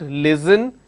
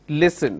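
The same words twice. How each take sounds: First: The middle consonant is a z sound. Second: The middle consonant is an s sound. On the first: The speaker calls it wrong. "It's not listen" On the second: The speaker calls it right. "it is listen"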